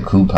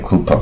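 First: COUPON as "koo-pahn", open ah and clear n; careful "coupon", ending in a full "pahn"; correct full ending. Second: COUPON as "koo-puh", weak ending without a clear n; "coupon" ending on a dull uh; mistaken second syllable. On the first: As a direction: open up the second syllable of "coupon". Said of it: "他念coupon". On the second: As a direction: say "coupon" wrongly, swallowing the last syllable. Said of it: "那他又不念coupon". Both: Shown as a demonstration.

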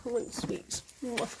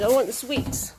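First: Breathy whisper for the horse. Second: Said in the usual way. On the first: Pretend. Owner voicing her horse begging for sweets in a whisper.

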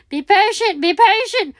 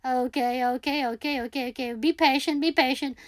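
First: Higher, pressing be patient; excited self-reminder; urgent self-coaching. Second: Quiet self-soothing. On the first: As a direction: urge yourself on. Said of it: "urgent self-coaching, louder". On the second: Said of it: "self-calming, quiet". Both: Real, not acted.

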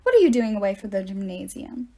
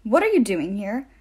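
First: Frowning reproach. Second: Demanding. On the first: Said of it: "She frowned at us". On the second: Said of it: "the woman demanded". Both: A narrator's reading.

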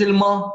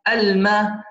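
First: الم with a heavy, rounded م, "al-maw"; mispronunciation demo. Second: الم with a thin, light "ma"; correct light M. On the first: Teacher shows the mistake, الم with heavy م. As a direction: thicken the vowel after م in الم. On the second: Teacher corrects it, الم with light م. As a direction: keep the م in الم fronted and light. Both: Shown as a demonstration. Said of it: "ليست الم".

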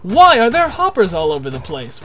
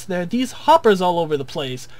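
First: A louder, demanding question in a viewer's mock outrage; mock indignation. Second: Said in the usual way. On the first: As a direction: grill yourself as a baffled viewer. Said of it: "you might ask". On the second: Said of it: "Richard, you might ask".

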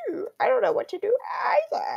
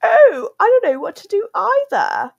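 First: Very high cracking mock yell; straining Freddy voice. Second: Very high, louder mock squeak; imitating Freddy voice. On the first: Vlogger strains to recreate Freddy voice, very high crack. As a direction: push it way up until it cracks. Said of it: "I can't, I can't do it". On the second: Vlogger recreates old Freddy voice, very high mocking squeak. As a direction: ham up the squeaky plush voice. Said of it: "I can't even recreate it".

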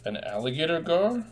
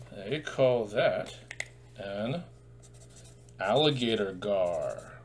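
First: Gasping, higher echo of the name; mock surprise. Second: Drawn-out, deliberate teacher's reveal; slow careful naming. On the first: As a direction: act amazed for the kids. Gasps, echoes the name back. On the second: Shown as a demonstration. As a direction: spell the name out slowly. Teacher names the fish.

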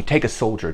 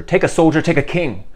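First: Said in the usual way. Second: Pressing louder, higher. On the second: Acted. King urging Kate to accept him, louder and higher. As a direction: take a soldier rises loud and urgent. Henry pleads, repeating himself.

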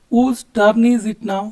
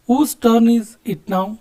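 First: Slow repeat. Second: Very slow, with each word separated; slow model question. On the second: Teacher showing students how to ask whose turn, slowly. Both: Shown as a demonstration. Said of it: "ಯಾರ turn ಅಂತ ಕೇಳ್ತೀವಲ್ಲ".

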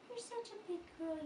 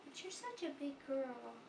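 First: Put-on "You're such a big girl" lifted much higher, sing-song; higher praising repeat. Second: Said in the usual way. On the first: Shown as a demonstration. Mother praising her baby girl while changing her, higher sing-song. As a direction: praise her again up high.

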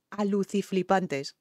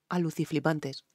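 First: Slow, savouring each syllable of aluciflipantes; savoured slowly. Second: Said in the usual way. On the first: Shown as a demonstration. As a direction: stretch out aluciflipantes, slowly relishing the made-up word. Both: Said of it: "con la palabra aluciflipante".

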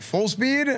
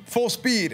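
First: High rising disbelieving question; incredulous echo. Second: Curt falling command, high; coach's order. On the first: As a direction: repeat it like you can't believe the order. Player echoes coach in disbelief. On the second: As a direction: bark out the drill call like a coach. Coach orders, player echoes. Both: Retold or imitated.

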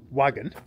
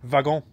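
First: Said in the usual way. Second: Wagon with a V sound, vagon; French pronunciation. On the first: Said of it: "then it would be pronounced with a, with a V". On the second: Shown as a demonstration. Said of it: "pronounced with a, with a V".

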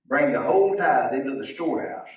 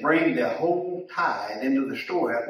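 First: "whole" leaned on a little louder; stress on whole. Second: Said in the usual way. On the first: Shown as a demonstration. Preacher repeating the verse to the congregation, pressing on "whole". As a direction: lean into the word "whole" as the verse comes back.

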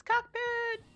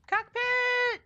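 First: "cockpit" yelled high; gleeful high shout of "cockpit". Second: "Cockpit" yelled high and loud; loud high gleeful shout of "Cockpit". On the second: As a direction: belt out "Cockpit". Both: Pretend. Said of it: "So keep saying it".

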